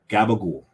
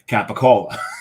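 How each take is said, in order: First: It is said in a local American pronunciation. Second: It is said in an Italian pronunciation. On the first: The speaker calls it wrong. "so mispronounced in this region" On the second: The speaker calls it right. "know how it's pronounced in Italian?"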